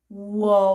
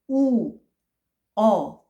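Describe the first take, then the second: First: The two vowels are said quickly, merged together. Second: The two vowels are said slowly and separately.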